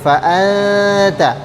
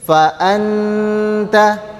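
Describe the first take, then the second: First: The n is concealed and nasalized. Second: The n is pronounced fully and clearly. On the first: The speaker calls it right. "lidahnya tidak melekat pada makhraj huruf nun" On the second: The speaker calls it wrong. "kalian baca dengan jelas huruf nunnya"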